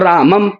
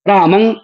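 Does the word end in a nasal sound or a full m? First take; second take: full m; nasal. First: The word ends in a full m sound. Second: The word ends in a nasal sound. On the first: The speaker calls it wrong. "रामम में मकार है" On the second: The speaker calls it right. "रामं में अनुस्वार है"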